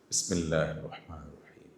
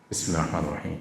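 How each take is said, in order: First: It is recited slowly and softly, murmured. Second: It is recited quickly, rushing through.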